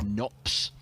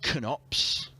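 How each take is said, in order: First: The name is said plainly, without emphasis. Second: The name is said with extra emphasis. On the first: The speaker calls it wrong. "mispronouncing it as just Knops" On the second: The speaker calls it right. "I am emphasising Knops"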